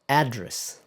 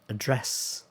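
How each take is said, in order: First: It is said in an American accent. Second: It is said in a British accent. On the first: "So American"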